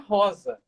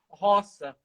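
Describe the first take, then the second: First: The middle consonant is a buzzing z sound. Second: The middle consonant is a hissing s sound. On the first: This is the name as intended. The speaker calls it right. "o nome dela é Rosa" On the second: The double S spelling leads to this reading. The speaker calls it wrong. "a pronúncia na escola"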